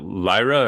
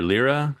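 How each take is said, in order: First: Lyra said as LIE-ruh; first syllable of Lyra rhymes with "eye"; Lyra with long I. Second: Lyra said as LEER-uh; first syllable of Lyra like "leer", questioning; Lyra with short I. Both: Shown as a demonstration. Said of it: "Sorry if I'm mispronouncing".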